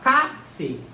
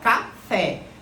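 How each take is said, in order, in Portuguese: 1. A sílaba tônica é a primeira. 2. A sílaba tônica é a última. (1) "é a penúltima ou é a última? Você fala café" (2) "Então a sílaba tônica é a última"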